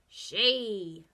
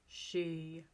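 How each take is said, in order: First: It is said in a put-on pirate voice. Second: It is said in a low, deep voice. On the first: "using a pirate voice" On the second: "using a low voice"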